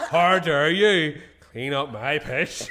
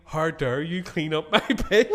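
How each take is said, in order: First: Slow, loud, drawn out in mock outrage; mock indignation. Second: Quoted through giggles, slow and loud; laughing quote. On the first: Repeating his drunk self's outrage to the hosts, slowly and loudly. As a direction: drag out the drunk's indignant words. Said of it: "She goes to me". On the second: Retold or imitated. First telling of his drunk words, laughing. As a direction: laugh while quoting it. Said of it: "she goes to me".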